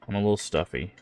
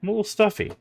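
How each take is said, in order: First: Blocked nose, normal pitch; stuffy nose. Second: Much higher, squeaky playful voice; high squeaky take. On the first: Real, not acted. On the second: Shown as a demonstration. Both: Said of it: "if you can't tell from my voice".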